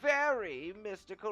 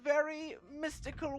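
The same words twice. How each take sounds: First: The words are said with strong, heavy emphasis. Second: The words are said plainly without extra emphasis. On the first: The speaker calls it right. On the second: The speaker calls it wrong.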